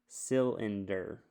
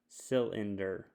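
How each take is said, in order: First: The middle vowel is a clear short vowel. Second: The middle vowel is a clear short vowel.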